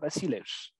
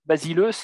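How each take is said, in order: First: It is read in a restored ancient pronunciation. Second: It is read like French, with final stress.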